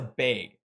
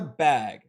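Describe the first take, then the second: First: The vowel is raised toward an 'ay' sound. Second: The vowel is a plain short 'a' sound. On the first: "That is a bag" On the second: "A true native to Minnesota does not say bag. That is not a bag"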